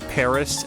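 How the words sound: It is said with an American English pronunciation. "I still say Paris"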